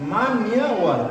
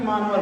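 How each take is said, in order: First: A 'y' sound follows the 'n'. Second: No 'y' sound follows the 'n'. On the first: The speaker calls it right. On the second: The speaker calls it wrong. "ना कि मानवर बोल देंगे इसको सब जल्दी जल्दी"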